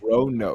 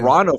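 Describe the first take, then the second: First: The middle syllable is said 'roh'. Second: The middle syllable is said 'rah'. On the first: The speaker calls it right. "is the correct way to say it" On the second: The speaker calls it wrong. "I was saying Morano for the longest time"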